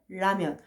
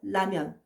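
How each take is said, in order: First: The first consonant is a lateral l sound. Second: The first consonant is a quick tongue flap. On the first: "설치금으로 해요" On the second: "탄설음으로 했거든요"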